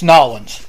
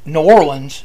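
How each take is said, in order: First: The city name is squeezed into fewer syllables. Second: The city name is said with every syllable. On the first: The speaker calls it right. "It's Nolens" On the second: The speaker calls it wrong. "It's not New Orleans"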